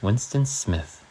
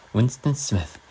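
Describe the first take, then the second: First: Said in the usual way. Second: Put-on British reading accent. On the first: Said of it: "Okay, I'll do it in a British accent". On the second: Streamer reading Orwell to viewers in a British accent. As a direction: read it like a British narrator. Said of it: "I'll do it in a British accent".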